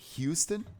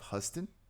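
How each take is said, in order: First: The name sounds like the Texas city. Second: The name does not sound like the Texas city.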